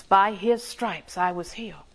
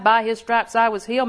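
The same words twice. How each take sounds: First: Slow, softer, reverent reading; reciting Scripture. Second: Said in the usual way. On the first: Shown as a demonstration. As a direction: lay the verse down slowly like a quiet prayer. Quoting the Scripture promise.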